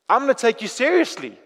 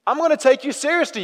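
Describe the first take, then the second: First: Said in the usual way. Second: Higher second take leaning on gonna; firmer repeat. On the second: Acted. Jesus insists to the praying believer, higher and firmer. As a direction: repeat it so they know you mean it.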